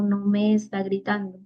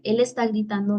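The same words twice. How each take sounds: First: Me lifted and held longer in no me está gritando; he's not shouting at me, stress falls on me. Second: Está gritando with the weight on está; he is shouting, stress falls on está. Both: Shown as a demonstration. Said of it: "trato de observarlo y decir".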